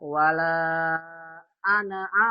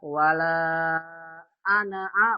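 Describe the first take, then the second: First: The vowel after the n is short. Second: The same.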